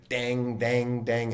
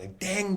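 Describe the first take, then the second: First: Said in the usual way. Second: Imitated bell ding. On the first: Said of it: "had a bell on it". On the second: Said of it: "I heard this bell sound".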